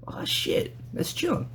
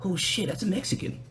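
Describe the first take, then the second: First: A shocked whisper to yourself; whispered inner thought. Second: Hushed inner thought. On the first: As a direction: whisper it, high on the name. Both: Retold or imitated. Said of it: "where you're just kinda like".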